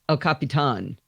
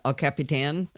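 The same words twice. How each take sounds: First: It is pronounced the original Spanish way. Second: It is pronounced the usual English way. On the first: This follows the name's origin. The speaker calls it wrong. "it comes from the original Spanish" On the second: This is what everyone usually calls it. The speaker calls it right. "That's not what we call it"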